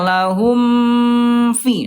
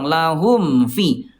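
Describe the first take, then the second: First: The m sound is held for a long time. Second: The m sound is closed briefly, not held. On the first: The speaker calls it wrong. "Tidak gini ya" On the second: The speaker calls it right. "cuma dirapatkan doang"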